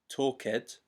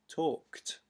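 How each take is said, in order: First: The ending is an extra syllable with a vowel. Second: The ending is a plain t sound, no vowel. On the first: The speaker calls it wrong. "we don't say talked" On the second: The speaker calls it right. "we say talked"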